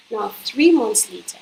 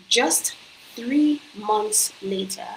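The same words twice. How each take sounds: First: Said in the usual way. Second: Just three months later drawn out very slowly, each word weighted; slowed, stressed three months later for impact; slow emphasis. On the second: Shown as a demonstration.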